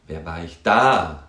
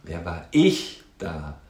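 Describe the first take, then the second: First: Slow, with DA loud and drawn out; stress on DA. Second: Slow, with ICH raised and stressed. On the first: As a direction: land hard on the final "da". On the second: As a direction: lean slowly on the word "ich". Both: Shown as a demonstration. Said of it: "wo die Betonung hingeht".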